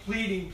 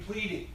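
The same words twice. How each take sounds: First: Said in the usual way. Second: Pleading repeated higher, pressing the point; hammered repeat. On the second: Shown as a demonstration. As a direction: drive pleading home on the echo. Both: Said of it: "it's just like it's hammering that point home".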